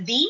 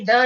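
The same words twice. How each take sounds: First: "the" said as thee; long ee vowel in "the"; alternative pronunciation. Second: First "the" with a schwa, like thuh; short neutral vowel in "the"; usual pronunciation. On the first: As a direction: say "the" to rhyme with see. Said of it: "also pronounced as the". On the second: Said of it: "the is also pronounced as the". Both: Shown as a demonstration.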